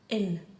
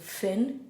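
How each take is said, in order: First: The word begins without any F sound. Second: The word begins with an F sound. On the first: "We lose the F noise completely whenever the H specialty goes in" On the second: "Finn is blonde"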